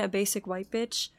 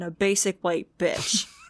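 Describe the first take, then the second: First: The last word carries no special emphasis. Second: The last word is strongly emphasized. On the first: She is simply into the current trend. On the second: She is mean and thinks she sets trends.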